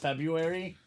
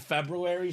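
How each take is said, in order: First: One sound in the word is dropped. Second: Every letter of the word is sounded. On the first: This is how people usually say it. "but everyone says February" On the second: This is the technically correct form. "it's technically February"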